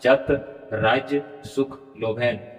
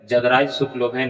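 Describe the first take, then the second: First: The first word ends in a 't' sound. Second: The first word ends in a 'd' sound. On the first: The speaker calls it right. "इस तरह से यहाँ उच्चारण होगा" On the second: The speaker calls it wrong. "उस तरह से यहाँ जदराज सुख लोभेन उच्चारण नहीं होगा"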